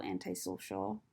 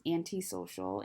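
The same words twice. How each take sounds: First: "antisocial" said as an-tie-social; anti pronounced an-tie. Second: "antisocial" said as an-tee-social; anti pronounced an-tee. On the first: Correcting herself on antisocial, "anti" said an-tie. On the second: Trying not to be antisocial, "anti" said an-tee. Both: Real, not acted. Says word in two pronunciations.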